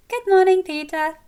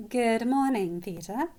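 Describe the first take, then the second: First: Very high, loud chirpy greeting; cheerful chirp. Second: Fondly exasperated greeting in an everyday register; fond eye-roll. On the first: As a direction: chirp it out like an eager little sister. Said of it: "Prim chirps". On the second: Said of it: "I roll my eyes at him with love". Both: A narrator's reading.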